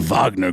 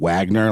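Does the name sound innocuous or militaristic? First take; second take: militaristic; innocuous. First: The name is said in a hard, militaristic way. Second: The name is said in a soft, innocuous way. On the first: It sounds like a military outfit. The speaker calls it right. "just has like a little bit more of a militaristic umami to it" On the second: It sounds like a harmless law firm. The speaker calls it wrong. "I've heard a lot of people mispronouncing it as such, it just sounds kind of like a really innocuous, like law firm"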